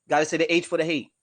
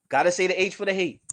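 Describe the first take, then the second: Both takes have the same delivery.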